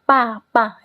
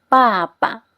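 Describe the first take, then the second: First: The second syllable carries a full tone. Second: The second syllable carries a light tone. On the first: The speaker calls it wrong. "Jangan kita baca papa. Itu nggak enak didengar ya" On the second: The speaker calls it right. "Kita harus bacanya ke belakangnya nada ringan"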